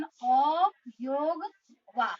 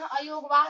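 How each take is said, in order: First: अयोग वाह drawn out slowly as अ, योग, वाह; correct pronunciation. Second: अयोग वाह run together quickly as one word; common mispronunciation. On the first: Teacher correcting children's pronunciation, slowly separating each part. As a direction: stretch the opening अ, then योग, pause, वाह. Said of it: "जबकि इसका उच्चारण". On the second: Teacher showing how many children say it, run together. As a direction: join अयोग and वाह without stretching the opening अ. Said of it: "बहुत सारे बच्चे क्या करते हैं". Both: Shown as a demonstration.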